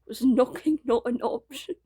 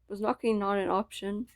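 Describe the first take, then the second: First: It is said in a put-on British accent. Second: It is said in the speaker's normal accent. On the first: "I gotta do the British accent" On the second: "I'm not gonna do that"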